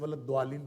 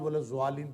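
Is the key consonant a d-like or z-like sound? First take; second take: d-like; z-like. First: The key consonant sounds like a d. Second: The key consonant sounds like a z. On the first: "द्वालीन दाल से होता है" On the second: "ज़्वालीन जे या दाल से होता है"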